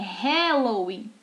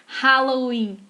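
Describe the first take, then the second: First: The 'a' vowel is not an open 'ah' sound. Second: The 'a' vowel is an open 'ah' sound. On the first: The speaker calls it right. "é Halloween" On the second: The speaker calls it wrong. "Assim como não é Halloween"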